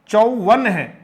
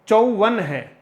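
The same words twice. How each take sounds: No difference in how they are said.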